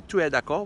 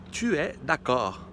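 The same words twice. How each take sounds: First: "Tu es d'accord?" rising at the end; question intonation. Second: Slow "Tu es d'accord." falling at the end, as a statement; statement intonation. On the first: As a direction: ask "Tu es d'accord?" by tune alone. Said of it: "ao invés de dizer". ("Tu es d'accord?" com entonação subindo no fim) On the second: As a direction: say "Tu es d'accord." slowly as a plain affirmation. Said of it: "fica parecendo uma afirmação". ("Tu es d'accord." devagar, com entonação de afirmação) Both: Shown as a demonstration.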